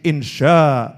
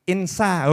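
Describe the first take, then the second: First: The middle consonant is an sh sound. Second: The middle consonant is a plain s sound. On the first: The speaker calls it right. "Oh itu pakai shin" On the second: The speaker calls it wrong. "dia bacanya itu insa. Oh, keliru nih itu ya"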